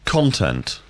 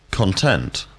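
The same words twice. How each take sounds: First: Content stressed on the first syllable, CON-tent; Content, the noun, weight on CON. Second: Content stressed on the second syllable, con-TENT; Content, the verb, weight on TENT. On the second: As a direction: say Content as kun-TENT, first syllable weak. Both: Shown as a demonstration. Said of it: "difference between the words content and content".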